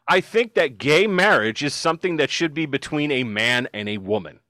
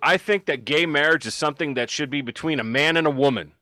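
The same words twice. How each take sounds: First: The quote is said slowly. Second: The quote is said fast.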